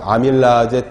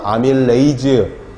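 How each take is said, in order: First: The word ends with an 'aje' sound. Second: The word ends with an 'eiz' sound. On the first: This is the older way of saying it. "예전 교수님들은 다 ... 아제로 발음했죠" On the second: This is the common modern way of saying it. "요즘은 에이즈로 발음을 많이 합니다"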